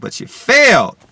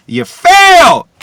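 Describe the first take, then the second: First: Said in the usual way. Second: Very high, very loud, slow scream; scream of contempt. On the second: Real, not acted. Telling John Skipper he failed, screamed at full force. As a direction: scream the verdict at him.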